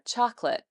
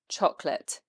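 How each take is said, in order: First: The first vowel is longer and higher in pitch. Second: The first vowel is short and lower in pitch. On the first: This is how Americans often say it. "You will often say this one a bit longer and also a little bit higher" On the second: This is how British speakers say it. "But for us, it's lower"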